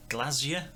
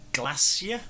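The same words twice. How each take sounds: First: "Glacier" with a buzzed Z, "GLAZ-yuh"; voiced Z pronunciation. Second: "Glacier" with a hissed S, "GLASS-ee-uh"; soft S pronunciation. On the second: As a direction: say "Glacier" as GLASS-ee-uh, questioning rise. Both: Shown as a demonstration. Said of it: "however you say it".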